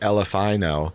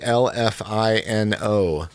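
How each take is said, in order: First: The letters are run together quickly. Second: The letters are said slowly, one by one.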